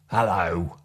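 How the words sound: It is said in a sharp, angry tone. "or an angry hello"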